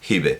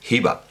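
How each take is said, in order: First: The name ends on an e vowel. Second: The name ends on a plain a vowel. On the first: The speaker calls it wrong. "a la manera dialectal" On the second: The speaker calls it right. "no se debería pronunciar, ... sería Hiba"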